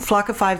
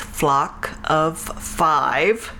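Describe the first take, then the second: First: The name is said quickly. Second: The name is said slowly. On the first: The speaker calls it wrong. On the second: The speaker calls it right.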